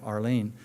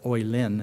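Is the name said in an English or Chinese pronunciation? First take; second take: English; Chinese. First: The name is said with an English pronunciation. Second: The name is said with a Chinese pronunciation.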